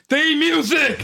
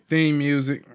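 First: It is said with lively enthusiasm. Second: It is said flatly, without enthusiasm.

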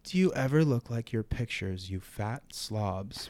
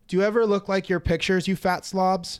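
First: It is read slowly and deliberately. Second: It is read quickly and casually.

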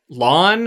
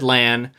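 First: The vowel sounds like the one in 'on'. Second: The vowel sounds like the one in 'an'. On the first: This is how the audiobook says it. "Lon is apparently how they pronounce it in the audiobook" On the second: This is how the show says it. "I've always said Lan"

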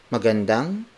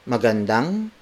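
No difference in how they are said.

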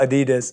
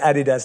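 First: It is said the American way. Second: It is said the British way. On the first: This is how other people say it. The speaker calls it wrong. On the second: This is the speaker's own way of saying it. The speaker calls it right. "As I say"

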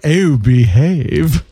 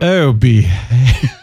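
First: It is said in a put-on character voice. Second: It is said in her normal voice.

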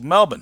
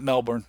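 First: Melbourne is said with an Australian pronunciation. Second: Melbourne is said with an American pronunciation. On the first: The speaker calls it right. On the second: The speaker calls it wrong.

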